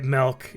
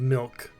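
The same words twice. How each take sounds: First: The vowel sounds like 'eh', as in melk. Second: The vowel sounds like 'ih', as in milk. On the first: "as soon as you spelled it M E L K, I went yeah. I do say it milk" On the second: "instead of milk"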